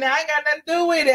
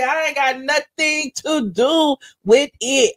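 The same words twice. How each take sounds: First: Rapid, dismissive disclaimer; quick denial. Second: Slow, deliberate disclaimer; emphatic slow denial. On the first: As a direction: rattle it off fast and high. Denies involvement, then repeats emphatically. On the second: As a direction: stretch it out word by word. Same denial repeated slowly for emphasis. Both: Real, not acted.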